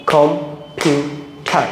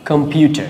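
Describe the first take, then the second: First: "computer" very slowly as কম, পিউ, টার, with gaps between; clap-along "computer", one spaced beat each for কম, পিউ, টার; split into syllables. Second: Said in the usual way. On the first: Shown as a demonstration. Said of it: "practical এবার practice করতে হবে". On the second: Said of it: "এরপর আছে আমরা".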